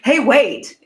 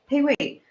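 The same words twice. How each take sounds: First: It sounds sharp and confrontational. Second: It sounds warm and inviting. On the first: The speaker is challenging the other person. The speaker calls it wrong. "it's not like" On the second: The speaker is inviting connection. The speaker calls it right. "It's like"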